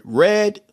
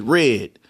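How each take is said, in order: First: Said in the usual way. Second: RED raised toward "rid"; Baltimore pronunciation. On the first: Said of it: "somebody from New York might say". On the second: Shown as a demonstration. Showing hometown speech, RED said like "rid". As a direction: tighten the vowel in RED, like "rid". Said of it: "Somebody from our part, from Baltimore, would pronounce it".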